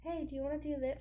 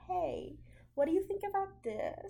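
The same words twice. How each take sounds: First: Said in the usual way. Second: High, tentative people-pleasing question; timid, hesitant asking. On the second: Retold or imitated. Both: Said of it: "you would say it like that".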